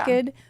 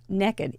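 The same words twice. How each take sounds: First: It is said with a plain standard accent. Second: It is said with a Southern American drawl. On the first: "It is spelled" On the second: "You have to say it with a southern accent"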